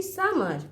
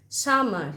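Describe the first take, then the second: First: summer said higher, each syllable clear; clear syllable demo. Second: Said in the usual way. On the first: Shown as a demonstration. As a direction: pitch summer up so the syllables can be counted. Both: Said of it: "কবার বলছি?".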